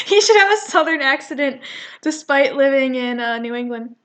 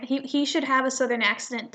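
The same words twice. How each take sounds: First: Laughing. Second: Said in the usual way. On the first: Real, not acted. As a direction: laugh through the correction. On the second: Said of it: "dis-, accident".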